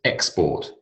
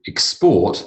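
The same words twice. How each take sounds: First: "export" stressed on the first syllable; noun stress on "export". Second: "export" stressed on the second syllable; verb stress on "export". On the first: Teacher reads noun example to class, first-syllable stress on "export". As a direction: say "export" as EX-port. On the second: Teacher reads verb example to class, second-syllable stress on "export". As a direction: say "export" as ex-PORT. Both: Shown as a demonstration. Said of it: "different emphasis".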